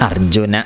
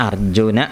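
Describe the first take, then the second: No difference in how they are said.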